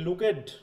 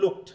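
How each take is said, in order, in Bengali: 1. -ed অংশটা একটা পূর্ণ আলাদা সিলেবল। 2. -ed অংশটা একটা ছোট 't' শব্দ। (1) "কবিতার সময় লুক না বলে বলতে পারি কি লুকেড" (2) "আমরা ইডি কিন্তু প্রোনাউন্সিয়েশন করছি না, ট আসতেছে ওই জায়গায়"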